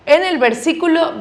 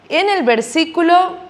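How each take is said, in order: Both takes have the same delivery.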